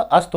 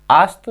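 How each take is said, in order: First: अस्त with a short अ; correct short vowel. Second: आस्त with a long आ sound; wrong long vowel. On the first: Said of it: "अस्त होता है". (अस्त में छोटा अ) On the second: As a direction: drag the first vowel out: आस्त. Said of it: "आस्त नहीं होता". (आस्त में खिंचा हुआ लंबा आ) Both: Shown as a demonstration.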